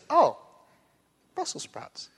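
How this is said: It sounds neutral, hiding quiet disappointment.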